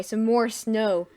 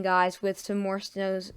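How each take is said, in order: First: Snow said singular, slow and louder; corrected emphasis. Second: Snows said with a plural s, slowly; slip saying snows. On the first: Forecaster corrects himself to viewers, slow firm some more snow. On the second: Forecaster slips while warning viewers about snow, says snows. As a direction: let the slip snows slide out unnoticed. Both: Real, not acted. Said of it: "s-, so-, sorry".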